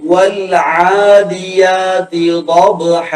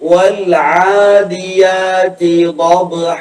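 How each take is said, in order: The two takes are said the same way.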